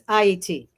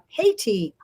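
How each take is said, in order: First: It begins with a vowel, like eye-ee-tee. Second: It begins with an H sound, like hate. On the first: The name as originally said. The speaker calls it right. "but it is Haiti" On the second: The name as altered in English. The speaker calls it wrong. "they changed the pronunciation in English to uh"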